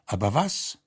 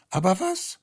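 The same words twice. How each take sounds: First: Said in the usual way. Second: Much higher, puzzled; rising bewildered question. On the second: Acted. Guest at the table, bewildered, asks himself high. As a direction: ask it again, far higher and lost.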